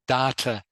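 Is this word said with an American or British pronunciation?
American. The word is said with an American pronunciation. "is what American people say"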